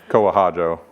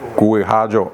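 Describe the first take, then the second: First: The name begins with a 'ko' sound. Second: The name begins with a 'gwee' sound. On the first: The speaker calls it wrong. "But people say Kohajo" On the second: The speaker calls it right. "It's Gui"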